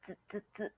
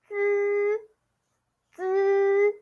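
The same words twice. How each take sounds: First: "Z" as brief, soft clipped buzzes like the end of a word; short final sound. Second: "Z" as a long buzzing syllable, high and level; first tone. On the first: Teacher isolating the word ending for students, short soft "Z". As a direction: repeat "Z" quickly and quietly, no tone. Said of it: "bat, bat, bat". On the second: Teacher bringing the Z sound to first tone, long high level "Z". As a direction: hold "Z" on a steady high pitch. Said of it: "Bring it to first tone". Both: Shown as a demonstration.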